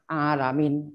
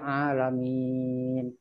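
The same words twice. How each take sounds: First: The final long vowel is cut short. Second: The final long vowel is held for a long time. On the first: The speaker calls it wrong. "Bukan alamin" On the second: The speaker calls it right. "Oh ini dibaca panjang, dibaca panjang ya mungkin lima harokat"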